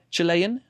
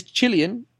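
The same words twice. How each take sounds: First: "Chilean" said very slowly and carefully as the correction; careful slow "Chilean", the preferred pronunciation; corrected pronunciation. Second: "Chilean" said slowly, the first way; drawn-out "Chilean", before the correction; "Chilean" in the pronunciation he then corrects. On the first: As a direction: spell out "Chilean" the better way. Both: Shown as a demonstration. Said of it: "probably the better way to say it".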